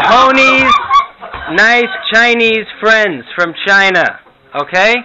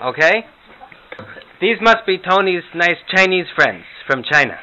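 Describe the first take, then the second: First: Louder, higher, slow grandma repeating herself to a deaf husband; Herta repeating louder. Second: High, chirpy grandma voice. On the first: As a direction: spell it out loudly for deaf Morty. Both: Pretend. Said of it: "some Morty and Herta imitations".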